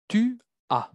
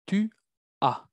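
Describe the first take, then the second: First: Tu as said high as one smooth unit, tu running straight into as; model French tu as. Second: Tu, then a pause, then as on its own; split into two words. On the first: Teacher modeling tu as for her students, high and smooth. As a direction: say tu as in one breath, pitched up. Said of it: "Segunda persona". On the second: Teacher breaking tu as apart so the class hears the A. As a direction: break Tu as into separate syllables, slowly. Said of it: "¿Por qué el sonido A?". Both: Shown as a demonstration.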